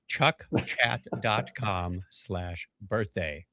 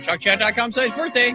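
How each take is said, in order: First: It is spoken slowly and deliberately. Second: It is spoken at a normal pace.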